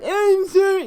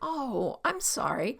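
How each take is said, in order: First: It sounds sharp and defensive. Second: It sounds soft and humble.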